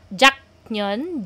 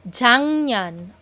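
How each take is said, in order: First: The word has a break between its two syllables. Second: The word flows smoothly with a nasal middle sound. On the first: The speaker calls it wrong. "parang may pause sa gitna, ... it does not sound smooth" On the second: The speaker calls it right. "bakit 작년 ang basa ko? Because we have what we call nasalization rule"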